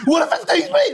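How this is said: The question sounds panicked and alarmed. The asker is frightened. "you asked with panic in your voice"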